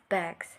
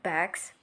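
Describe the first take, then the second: First: The word ends with a z sound. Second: The word ends with an s sound. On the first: The speaker calls it right. "but we say bags. The S sound changes to a Z" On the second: The speaker calls it wrong. "We don't say bags"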